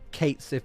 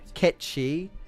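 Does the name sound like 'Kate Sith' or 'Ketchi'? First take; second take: Kate Sith; Ketchi. First: The name sounds like 'Kate Sith', two English words. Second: The name sounds like 'Ketchi', two short syllables. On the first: This is how most people say it. The speaker calls it wrong. "call him Kate Sith" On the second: This is the pronunciation the name is based on. The speaker calls it right. "Ketchi is apparently what Kate Sith is supposed to be"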